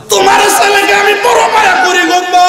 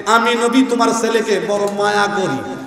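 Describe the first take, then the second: First: High chanted shout, last word held; impassioned cry. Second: Said in the usual way. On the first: Retold or imitated. Prophet pleading with the mother for her son, high chanted cry. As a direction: plead at full voice in preacher's chant. Same words cried out to the mother.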